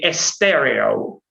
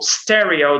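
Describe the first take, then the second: First: An extra e vowel is added before the s. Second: The word starts directly with the s sound.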